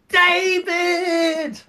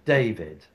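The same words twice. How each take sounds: First: It is said with extreme exaggeration. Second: It is said with mild exaggeration.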